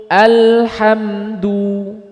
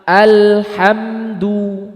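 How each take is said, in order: Both takes have the same delivery.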